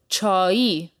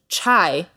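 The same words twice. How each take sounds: First: The word is said with a Persian pronunciation. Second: The word is said with an English pronunciation. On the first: The speaker calls it right. "It's pronounced differently" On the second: The speaker calls it wrong. "the way we say it in the English language"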